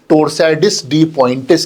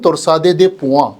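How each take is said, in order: First: Indian accent, with every written letter pronounced. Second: French accent, with the final letters left silent. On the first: This is how Indians say it. "हम हर हर लफ्ज को अनाउंस करते हैं exactly" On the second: This is how French speakers say it. "France वाले यदि French style में कहेंगे"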